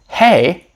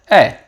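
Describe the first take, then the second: First: The h sound at the start is pronounced. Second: The h sound at the start is dropped. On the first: "instead of hey" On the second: "we sometimes don't pronounce the H in hey"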